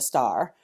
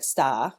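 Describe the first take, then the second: First: The final R sound is pronounced. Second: The final R sound is dropped. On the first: "instead of star" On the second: "if you s- didn't say the R's"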